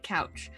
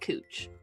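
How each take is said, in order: First: The vowel sounds like the one in 'cow'. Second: The vowel sounds like the one in 'moo'. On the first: The speaker is from out of town. The speaker calls it wrong. "when someone's out of town because they say it couch" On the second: The speaker is a local. The speaker calls it right. "everyone local calls it cooch"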